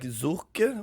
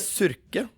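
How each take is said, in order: First: The surname is said with a German-style pronunciation. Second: The surname is said with a Norwegian pronunciation. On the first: The speaker calls it right. "But I think it's like Zurke or something like that" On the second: The speaker calls it wrong. "for me to pronounce it in Norwegian, I think I pronounced it wrong myself. I say Surke"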